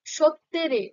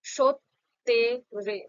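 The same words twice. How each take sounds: First: Said in the usual way. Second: সত্যেরে said very slowly as সৎ-তে-রে; slow syllable demo. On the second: Shown as a demonstration. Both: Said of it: "যেমনটা উচ্চারণ করলাম".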